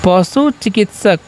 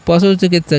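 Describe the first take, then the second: First: Slow drill. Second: Said in the usual way. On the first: Shown as a demonstration. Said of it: "याद रखना है". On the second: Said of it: "क्या होता है वेट का मतलब?".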